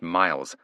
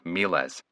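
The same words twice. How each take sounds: First: It is pronounced like the English word miles. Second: It is pronounced as the Latin word miles. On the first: The speaker calls it wrong. "The first word isn't pronounced Miles" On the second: The speaker calls it right. "it's pronounced Miles. Hunter's pronunciation changed completely"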